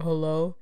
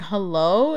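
First: Half-hearted attempt at a deep voice; mock deep phone hello. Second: Said in the usual way. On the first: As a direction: imitate a deep-voiced caller, only slightly lowered. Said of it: "me trying to do a deep-ass voice". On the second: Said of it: "it was, like, a deep-ass voice".

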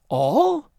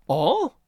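First: ALL as a high, rising question; vastly incredulous. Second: ALL as a raised, innocent question; puzzled questioning. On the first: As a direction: say ALL in loud, high disbelief. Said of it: "There was vast incredulity in his voice". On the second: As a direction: echo ALL as a big baffled question. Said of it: "In her voice was an interrogation no less vast". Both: A narrator's reading.

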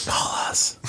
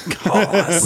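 First: Soft whispered call us; whispering. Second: Said in the usual way. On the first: Pretend. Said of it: "whispered plea to call in". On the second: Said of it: "repeated out loud".

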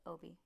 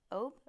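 First: "Oboe" in two syllables, OH-bee, softly; corrected pronunciation. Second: "Obe" as one syllable, final e silent; unsure pronunciation. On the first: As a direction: say "Oboe" ending in a quiet "bee". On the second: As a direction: try "Obe" to rhyme with robe, questioning. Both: Real, not acted. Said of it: "I don't know what that one's called".

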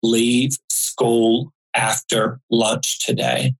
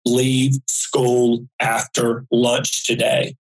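First: Slow, measured calm voice. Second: Slow, deliberate, clearly spaced words; clear and stronger. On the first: Mysterious man's voice warning a child on a bus, very calm. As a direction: space the words out evenly and calmly. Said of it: "a man's voice very calmly said". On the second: Mysterious voice warning the child a second time, slow and clear. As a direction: repeat the warning slowly, a touch firmer. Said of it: "clear and stronger outside of me". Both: Retold or imitated.

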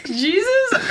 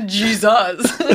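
First: Said in the usual way. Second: "Jesus" with a buzzing Z and open last vowel. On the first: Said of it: "Jesus or Jesus?". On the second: Shown as a demonstration. Comparing two ways to say it, exaggerated Z in "Jesus". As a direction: draw out "Jesus" as "Jee-zahs". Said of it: "You say it with, like, a Z".

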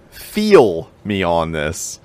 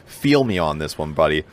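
First: Slow, drawn-out Pittsburgh "Feel me on this"; Pittsburgh accent. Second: Pittsburgh accent. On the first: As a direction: lean into a Pittsburgh accent, slowly. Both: Shown as a demonstration. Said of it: "get my Pittsburgh accent out of the way".

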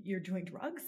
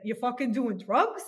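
First: Said in the usual way. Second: Put-on a light Bronx accent, louder, a rising "drugs". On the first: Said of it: "and he said". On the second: Daughter imitating her Bronx father's alarmed question, light Bronx accent. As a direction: play the dad's Bronx accent with "You fucking doing drugs?" in mock disbelief. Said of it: "and he said it like this".

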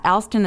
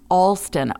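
First: "Alston" starting like the name Al; mistaken pronunciation. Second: "Alston" with an open AW first vowel; corrected pronunciation. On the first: Reader voices a listener's correction of the surname, mistaken "Alston" with short A. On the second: Reader voices a listener's friendly correction, "Alston" said as ALL-ston. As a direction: say "Alston" starting like the word all. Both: Shown as a demonstration. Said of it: "Alston is pronounced Alston".

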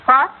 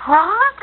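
First: Said in the usual way. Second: Sharp, much higher alarmed what; shocked. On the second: Acted. Mother hearing her son's bad news, shocked. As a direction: hear bad news and jolt.

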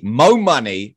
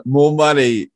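First: "Mo Money" with a short "Mo" and no r; corrected title. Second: "more money" with a full "more" and a clear r; misread title. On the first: Fixing the song title for the host, "Mo" with no r. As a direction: clips "more" down to "Mo" in "Mo Money". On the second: Reading the song title to the host as "more money". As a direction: says "more money" in full, both words complete. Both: Real, not acted. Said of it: "Oh, actually, Mo Money".

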